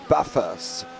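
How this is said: It is said with an Australian accent. The speaker calls it wrong. "you say Bathurst"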